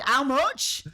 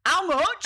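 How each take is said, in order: First: "How much?" in broad Yorkshire with a rising end. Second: "How much?" in broad Yorkshire, pitched up and loud. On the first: Retold or imitated. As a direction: ask "How much?" like a canny Yorkshire shopper. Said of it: "In true Yorkshire fashion". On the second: Pretend. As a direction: bark out "How much?" like a tight Yorkshire lass. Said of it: "a cup that says".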